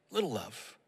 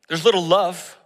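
First: "Little love" dropped to a near hush; soft echo. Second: "little" punched out loud; stress on little. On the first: Pastor echoing himself, "Little love" hushed and falling. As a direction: let "Little love" fall away softly. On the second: Pastor preaching, punching "little" out loud. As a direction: lean hard into "little" before "love". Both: Shown as a demonstration.

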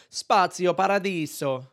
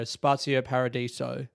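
First: Slow, higher, showy Italian pronunciation; overdone Italian flourish on Spazio Paradiso; full-hog Italian accent. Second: Spazio Paradiso in plain English sounds, R unrolled; deadpan, accentless Spazio Paradiso; no rolled R. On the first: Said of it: "Do you go full hog". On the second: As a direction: say Paradiso flatly anglicised, with no tapped R. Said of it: "like a dead shit and go". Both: Shown as a demonstration.

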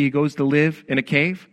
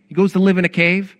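First: Said in the usual way. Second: Raised, incredulous stress on "He goes to live in a cave"; emphatic repeat. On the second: Real, not acted. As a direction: CAVE and LIVE punched louder and higher.

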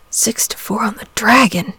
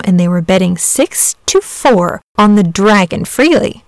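First: Softer, sadly murmured to himself. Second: Said in the usual way. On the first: A narrator's reading. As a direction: murmur it softly, sad and resigned. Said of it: "murmured Saint George sadly".

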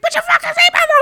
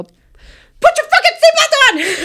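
First: High, loud imitating yell; mock shriek. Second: Shrieking, slow, high yell; screamed order. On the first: Driver imitating her friend's seatbelt outburst, mock shriek. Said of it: "She's like". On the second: Retold or imitated. Passenger losing it at the driver over the seatbelt, shrieking yell. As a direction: explode at her like you've snapped. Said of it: "She yelled at me".

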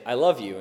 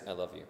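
First: Said in the usual way. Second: Low and quiet I love you, no warmth; flat, cold I love you. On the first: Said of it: "send my wife a text message, say". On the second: Shown as a demonstration. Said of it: "she could read it as".

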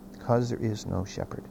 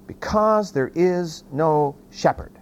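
First: Low, soft and grave; hushed repeat. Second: Said in the usual way. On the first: Real, not acted. Preacher repeating the verse to the congregation, hushed. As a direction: drop the voice right down to let it sink in.

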